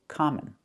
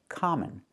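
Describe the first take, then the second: No difference in how they are said.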